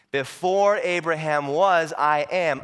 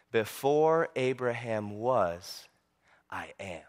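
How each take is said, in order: First: Slow, forceful preacher's proclamation; firm, stretched-out emphasis; emphatic declaration. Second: Low, slow, solemn declaration; grave and hushed, with great weight; very serious. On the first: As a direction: proclaim it in full voice. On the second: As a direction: drop the voice, pause, then soften right down. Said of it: "Jesus gets very serious". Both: Acted.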